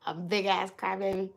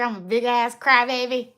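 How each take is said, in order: First: Said in the usual way. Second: Louder and higher, proclaiming it to the chat; loud self-mocking declaration. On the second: Real, not acted. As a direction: belt it out like a proud confession.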